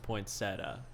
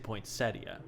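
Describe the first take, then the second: First: The ending is a plain 'tuh' without 'ee'. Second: The ending is 'tee-uh' with an 'ee' sound. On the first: This is how most other people say it. "everyone else says it's poinsettia because there is no I" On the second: This is the speaker's own way of saying it. "I always say poinsettia just because that sounds pretty to me"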